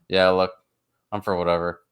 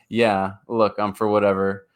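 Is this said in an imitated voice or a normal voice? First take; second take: imitated; normal. First: It is said in a put-on imitation voice. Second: It is read in the speaker's own normal voice.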